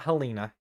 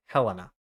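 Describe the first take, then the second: First: Helena said as heh-LEE-nuh; wrong pronunciation. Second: Helena said as HEL-uh-nuh; correct pronunciation. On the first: Forecaster ruling out a way to say it, wrong pronunciation. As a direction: say Helena with a long ee in the middle. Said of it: "Okay, not Helena". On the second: Forecaster settling the town's name, correct pronunciation. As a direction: say Helena stressed on HEL, with a short middle vowel. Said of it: "Yeah, it's Helena". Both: Shown as a demonstration.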